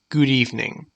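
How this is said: It is said in a composed, professional tone. It suits a corporate setting. "This tone shows professionalism"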